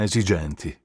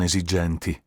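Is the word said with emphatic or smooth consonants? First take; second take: smooth; emphatic. First: The consonants are light and smooth. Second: The consonants are strongly marked and emphatic. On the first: The speaker calls it right. "doveva essere un po' più liscio, un po' più nordico" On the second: The speaker calls it wrong. "non esigenti"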